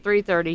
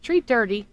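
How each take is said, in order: First: The first word starts with a 'th' sound. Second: The first word starts with a 't' sound. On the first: "instead of saying three thirty" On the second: "He has an accent, ... he says at tree thirty"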